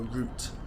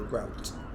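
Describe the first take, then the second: First: It is said the British way. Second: It is said the American way. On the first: "British people follow a route" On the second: "Americans follow a route"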